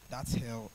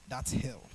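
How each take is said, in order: Both takes have the same delivery.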